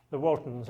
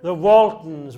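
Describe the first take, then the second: First: Said in the usual way. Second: "Waltons" called out much louder with a falling tune; proud loud reveal of "The Waltons"; loud answer. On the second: Real, not acted. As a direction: announce "Waltons" loudly to the room. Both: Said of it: "Anybody recognise this picture?".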